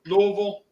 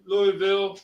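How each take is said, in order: First: "Louisville" as LOH-vul; "Louisville" in two slurred syllables; local pronunciation. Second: "Louisville" as LOO-ee-vil; "Louisville" in three syllables, ending VIL; spelled-out pronunciation. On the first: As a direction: drop the middle of "Louisville". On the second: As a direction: keep the EE in "Louisville". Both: Shown as a demonstration. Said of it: "Louisville or Louisville".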